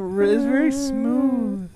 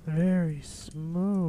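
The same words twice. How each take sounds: First: Pitched well up, smooth high voice. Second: Very slow, stretched-out "Very smooth", falling at the end; long, smooth, sliding delivery; drawn-out smooth. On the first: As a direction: lift the voice high and keep it smooth. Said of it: "do this high voice". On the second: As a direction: glide slowly through each word, lower and softer. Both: Shown as a demonstration.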